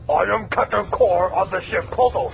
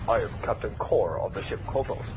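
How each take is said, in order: First: The voice is pushed lower and deeper. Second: The voice is fairly high and not deep.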